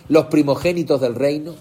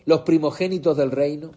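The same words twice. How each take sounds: The two takes are said the same way.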